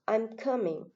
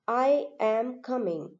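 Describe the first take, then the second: First: I and am are contracted into one syllable. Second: I and am are both said in full. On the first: The speaker calls it right. "they are contracted and it is pronounced as" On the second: The speaker calls it wrong. "It is how a Malayalis pronounce it"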